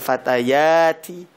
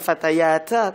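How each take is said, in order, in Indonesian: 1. Kata ini berakhir dengan vokal 'i'. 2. Kata ini berakhir dengan vokal 'a'. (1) "innal fatayati" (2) "bukan fatayata"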